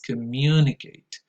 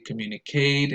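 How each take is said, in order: First: The stress falls on the second syllable. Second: The stress falls on the last syllable. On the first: The speaker calls it right. "the first word that we need to learn how to pronounce" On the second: The speaker calls it wrong. "I hear some learners say communicate"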